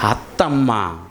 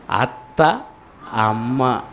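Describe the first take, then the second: First: అత్తమ్మ run together as one low word; joined full word. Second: అత్త and అమ్మ said as two separate words, pause between; split into two words. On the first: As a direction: join అత్త and అమ్మ with no pause: అత్తమ్మ. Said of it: "అత్తమ్మ అని పలకాలి". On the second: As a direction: say అత్త, stop, then a low అమ్మ. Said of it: "సంపూర్ణంగా పలకాలి అని అంటే". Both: Shown as a demonstration.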